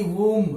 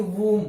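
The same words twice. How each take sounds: First: वूम with an audible B after M; sounded B, wrong. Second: वूम with no B at the end; silent B. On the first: Teacher shows the mistake to avoid, वूम with sounded B. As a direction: close वूम on a voiced B. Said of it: "न कि वूम". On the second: Teacher models the word for students, वूम with silent B. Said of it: "बी क्या रहेगा? Silent". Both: Shown as a demonstration.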